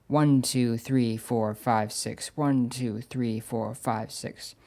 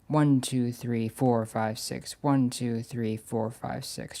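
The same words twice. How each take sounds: First: The count is accented in groups of two. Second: The count is accented in groups of three. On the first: The rhythm is three-four time. "its beats are divided into even groups" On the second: The rhythm is six-eight time. "a group of three beats followed by another group of three beats"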